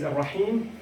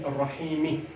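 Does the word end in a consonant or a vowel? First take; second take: consonant; vowel. First: The word ends on the consonant m. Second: The word ends with an added i vowel. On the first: "if I pause, it is ar-Rahim" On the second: "If I join, it is ar-Rahimi"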